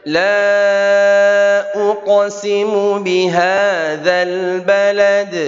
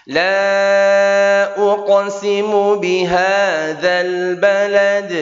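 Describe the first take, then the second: Both takes have the same delivery.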